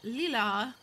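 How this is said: The name is said with a French pronunciation. The speaker calls it right. "the bot, actually says it nicely. It's like lila"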